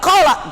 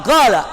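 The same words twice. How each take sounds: First: Said in the usual way. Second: "gala" with a firm hard g replacing the q; Yemeni g. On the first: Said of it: "Tidak qala". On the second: Shown as a demonstration. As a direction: correct q to g in "gala", Yemeni style. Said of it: "tapi ucapannya gala".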